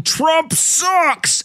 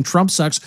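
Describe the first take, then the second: First: High, drawn-out chant-like yell without real volume; mock crowd yell. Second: Said in the usual way. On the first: Host imagines an arena crowd jeering the president, mock yell. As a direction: imitate a crowd yelling, pitched well up. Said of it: "yelling, ... at the top of their lungs". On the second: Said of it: "everybody yelling".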